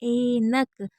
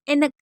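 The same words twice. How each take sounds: First: The first vowel is drawn out long. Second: The first vowel is short and quick. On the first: The speaker calls it right. "ए को हम खींच रहे हैं" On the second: The speaker calls it wrong. "ऐसे तो नहीं बोलते"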